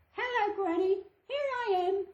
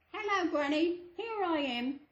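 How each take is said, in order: First: Put-on much higher, sweet little girl. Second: Put-on wolf putting on a higher little girl voice; wolf faking girl's voice. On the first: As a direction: call sweetly at the door. Girl arrives at Granny's. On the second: Wolf at Granny's door faking a higher little girl voice. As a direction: trick Granny with a sweet girl voice. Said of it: "he calls in a little girl's voice".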